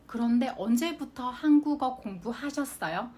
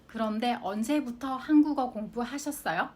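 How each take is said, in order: First: 그런데 언제부터 한국어 공부하셨어요 read at an even, careful pace; careful model reading. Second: 그런데 언제부터 한국어 공부하셨어요 run together quickly at natural speed. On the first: Teacher reads the example sentence to students, careful and even. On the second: Teacher repeats the example at native speed, quick and natural. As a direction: say it fast like a native would. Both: Shown as a demonstration. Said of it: "いつから韓国語の勉強されましたか".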